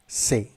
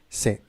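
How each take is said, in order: First: It begins with a hissing 's' sound. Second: It begins with a hissing 's' sound.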